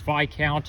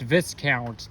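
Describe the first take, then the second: First: The word is said without an S sound. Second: The word is said with an S sound. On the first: The speaker calls it right. "The S is silent" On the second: The speaker calls it wrong. "it's not pronounced Viscount"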